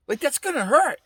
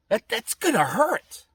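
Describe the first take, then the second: First: Higher wince. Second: Slow dread. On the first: Picturing the airbag hitting his face, higher rising wince. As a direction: repeat it higher, with hurt rising at the end. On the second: Imagining the airbag blowing up in his face, slow wince. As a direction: slowly draw out gonna with a rising wince. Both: Pretend. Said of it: "And I used to think".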